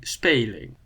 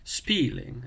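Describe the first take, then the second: First: Speling said with a long Dutch e, like spay-ling; Dutch long e vowel. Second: Spieling said with a long ee, like speeling; long ee vowel. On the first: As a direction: draw out the e in speling like the ay in play. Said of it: "it would be speling". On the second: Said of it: "something like spieling in English". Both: Shown as a demonstration.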